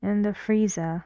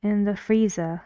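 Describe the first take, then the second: No difference in how they are said.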